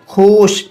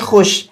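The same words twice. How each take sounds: First: The vowel is drawn out long. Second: The vowel is short and quick. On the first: The speaker calls it wrong. "हम लफ्ज़ खुश को खींच कर पढ़ते" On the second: The speaker calls it right. "बल्कि हम इसको पढ़ते हैं खुश"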